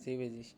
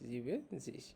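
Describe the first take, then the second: First: No n sound is heard before the z. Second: An n sound is heard before the z. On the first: The speaker calls it right. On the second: The speaker calls it wrong.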